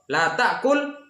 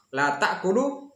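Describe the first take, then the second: First: "ta'kul" ends on l with no vowel, pitched higher; sukun on final lam. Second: "ta'kulu" ends on an added u; vowel on final lam. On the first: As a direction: say "La ta'kul" high, stopping right on the l. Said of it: "itu perbedaannya". ("ta'kul" dengan lam sukun, tanpa bunyi u) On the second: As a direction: say "La ta'kulu" slowly, with u after the l. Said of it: "kalau kasih baris di". ("ta'kulu" dengan baris dhammah, berakhir bunyi u) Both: Shown as a demonstration.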